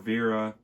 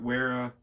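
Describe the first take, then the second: First: The name starts with a V sound. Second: The name starts with a W sound. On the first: "I think it's technically supposed to be Vera" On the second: "if you got Wera or Vera, however you say it"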